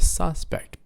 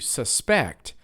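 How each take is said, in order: First: The stress is on the first syllable. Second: The stress is on the second syllable. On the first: It names a person thought to have committed a crime. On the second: It names the action of thinking someone is guilty.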